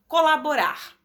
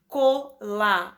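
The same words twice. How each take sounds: First: Said in the usual way. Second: Colaborar said slowly as co-la-bo-rar; slow syllable by syllable. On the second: Shown as a demonstration. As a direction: spell out colaborar in slow beats. (colaborar dividido em sílabas, devagar) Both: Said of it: "polissílaba".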